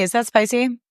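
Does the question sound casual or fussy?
casual. The question sounds casual and relaxed. The person simply checks and quietly moves on. The speaker calls it right.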